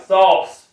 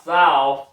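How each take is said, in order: First: "sauce" with a long Southern /sɔls/ vowel. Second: "sauce" said /saʊs/, not the Southern way; plain "sauce". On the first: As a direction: say "sauce" the country way. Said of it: "Like sauce, not sauce". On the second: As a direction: say "sauce" the standard way. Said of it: "not sauce". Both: Shown as a demonstration.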